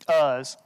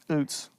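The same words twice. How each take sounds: First: The name is pronounced the usual English way. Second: The name is pronounced the Hebrew way. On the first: "How do we pronounce it?" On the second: "That's how you'd pronounce it if we were reading Hebrew"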